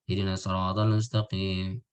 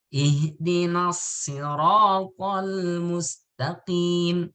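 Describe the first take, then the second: First: The vowels are said with the mouth barely open. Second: The vowels are said with the mouth wide open. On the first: The speaker calls it wrong. "Nah, itu enggak" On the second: The speaker calls it right. "itu mulutnya dibuka"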